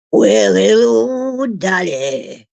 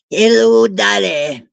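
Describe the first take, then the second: First: Slow, drawn-out Australian greeting; Australian accent. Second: Light Aussie lilt on a greeting; Australian accent. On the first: Crooning to the dog Dolly in a slow Australian accent. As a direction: stretch the Aussie hello out slowly. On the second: Greeting the dog in a mild Australian accent. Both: Pretend. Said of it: "I guess I sound a bit Aussie there".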